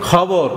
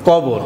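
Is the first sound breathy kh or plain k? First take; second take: breathy kh; plain k. First: The word begins with a breathy kh sound. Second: The word begins with a plain k sound. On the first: This is how the speaker's own community says it. "আমরা বলি খবর" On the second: This is how people of another region say it. "তারা কি বলে কবর"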